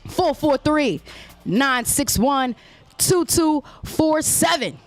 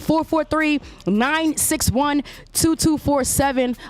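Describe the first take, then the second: First: The number is said slowly. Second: The number is said fast.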